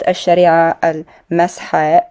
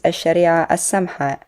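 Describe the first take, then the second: First: The second word begins with an M sound. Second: The second word begins with an S sound. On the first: The speaker calls it wrong. "as the typo said" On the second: The speaker calls it right. "Starts with a sin, an S sound"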